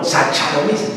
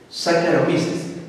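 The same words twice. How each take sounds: First: Saccharomyces with CH as in chair, mock mistake; wrong pronunciation. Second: Saccharomyces with a hard K sound, said slowly; correct pronunciation. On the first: Teacher mimicking a student's wrong Saccharomyces with a CH sound. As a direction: say Saccharomyces as sa-cha-ro-mi-ses. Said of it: "no, no, no, no". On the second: Teacher modelling Saccharomyces slowly with a K sound. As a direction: say Saccharomyces as sa-ka-ro-mi-ses. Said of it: "C H suena como K". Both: Shown as a demonstration.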